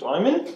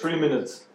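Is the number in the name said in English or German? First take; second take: German; English. First: The name is read as German "Dreimin". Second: The name is read as English "three minutes". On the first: The speaker calls it wrong. "Dreimin ist aber nicht der richtige Name" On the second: The speaker calls it right. "3 Minutes ist, glaube ich, der richtige"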